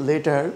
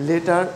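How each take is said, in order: Both takes have the same delivery.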